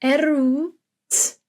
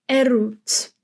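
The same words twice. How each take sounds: First: "Eroet" drawn out, sound by sound; teacher's stretched-out "Eroet". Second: Said in the usual way. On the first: Shown as a demonstration. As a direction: stretch "Eroet" slowly through its vowel, lifted pitch. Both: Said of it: "and then we pronounce the w".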